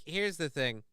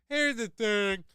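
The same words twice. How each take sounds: First: Said in the usual way. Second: High put-on voice echoing the phrase; mock catchphrase voice. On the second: Host mocking his own stock phrase, put-on high voice. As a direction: parrot the phrase back in a silly high voice.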